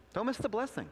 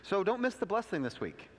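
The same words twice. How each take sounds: First: Don't miss the blessing lifted high, stress on miss; earnest higher repeat. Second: Said in the usual way. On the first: Shown as a demonstration. Pastor urging the congregation, earnest and higher. Preacher exhorting.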